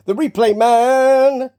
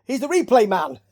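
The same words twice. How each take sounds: First: Loud, higher, slow announcement; drawn-out title. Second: Said in the usual way. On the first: Pretend. Host playfully billing the replay man, drawn-out announcer call. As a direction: stretch MAN out long and loud. Mock title after plain take.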